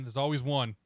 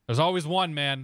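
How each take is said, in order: First: Said in the usual way. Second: Louder, amused exclamation; emphatic. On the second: Real, not acted. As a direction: exclaim it with a laugh in it. Joking about a strobe-light pilot.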